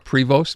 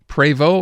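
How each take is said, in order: First: The name is said the American way. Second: The name is said in a non-American way.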